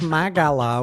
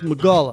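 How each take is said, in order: First: A full vowel follows the M. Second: The vowel after the M is dropped. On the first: The speaker calls it wrong. "it's not pronounced Magala, which is M A G A" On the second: The speaker calls it right. "it's M apostrophe"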